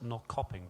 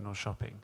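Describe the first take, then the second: First: The name is sounded out the way it is written. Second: The name is sounded differently from how it is written. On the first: This is how the name is written. "It's spelt Norrköping" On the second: This is how the local people say it. "but they pronounce it Norrköping"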